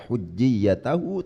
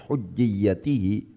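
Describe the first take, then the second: First: The vowel before the final syllable is a. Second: The vowel before the final syllable is i. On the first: The word is in the accusative case. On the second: The word is in the genitive case.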